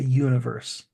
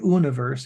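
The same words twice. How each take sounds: First: The word starts with a Y sound. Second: The word starts with a plain vowel sound. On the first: The speaker calls it right. "you say universe" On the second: The speaker calls it wrong. "you don't say universe"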